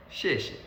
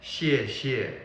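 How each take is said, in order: First: 谢谢 short and run together, second syllable light; everyday pronunciation. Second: 谢谢 with two full falling tones; textbook pronunciation. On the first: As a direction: say 谢谢 as one quick natural word. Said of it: "in our daily life we say it is". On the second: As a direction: give each syllable of 谢谢 equal weight. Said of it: "will teach you". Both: Shown as a demonstration.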